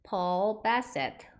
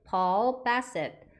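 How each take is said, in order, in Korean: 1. 이 이름은 영어식 발음으로 말해요. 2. 이 이름은 영어식 발음으로 말해요.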